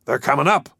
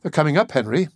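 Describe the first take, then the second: First: Mildly raised cry of alarm. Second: Higher, worried appeal; anxious. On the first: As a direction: cry the warning out, not at full shout. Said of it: "cried Bartholomew". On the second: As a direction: turn to him with a touch of alarm. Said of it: "Edith turned anxiously to Henry". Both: A narrator's reading.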